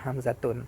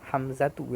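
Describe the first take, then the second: First: The name ends with an added n sound. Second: The name ends on a vowel, no final n. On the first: The speaker calls it wrong. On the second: The speaker calls it right.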